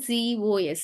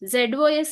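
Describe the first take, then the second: First: The first letter is said as zee. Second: The first letter is said as zed. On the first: "we have to pronounce it as జీఓఎస్" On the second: "జెడ్ఓఎస్ అని ఉంది కదా"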